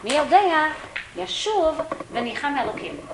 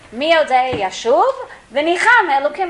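First: It has a pause after 'mi yodei'. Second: It runs on without a pause after 'mi yodei'. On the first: Who knows whether one will repent and be forgiven. "you have to pause between mi yodei and yashuv" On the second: Whoever knows how to repent will be forgiven. "Whoever knows how to do tshuva"

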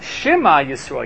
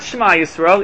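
First: The vowel after sh is lightly pronounced. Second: The vowel after sh is dropped. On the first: The speaker calls it right. "You have to pronounce the is sound of the Shema" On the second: The speaker calls it wrong. "It's not Shema Yisrael"

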